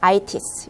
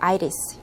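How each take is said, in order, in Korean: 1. T는 또렷하고 강한 T 소리로 발음해요. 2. T는 약해져서 R처럼 들려요. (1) "브리티시 잉글리시 영국식 발음에서는 T 사운드를 강하게 그대로 해줘요" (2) "아메리칸 잉글리시"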